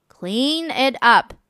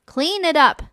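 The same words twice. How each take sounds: First: Slow, firm mother spelling it out; firm slow order. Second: Mother's order. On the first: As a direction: mom putting her foot down, slowly. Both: Acted. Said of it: "said the mother".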